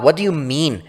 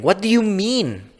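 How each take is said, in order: First: Said in the usual way. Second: Much higher, panicked question; panicked high pitch. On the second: Acted. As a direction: voice shoots up in panic. Panicking as she sweats.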